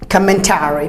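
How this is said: It is said with an American accent. "Americans commentary"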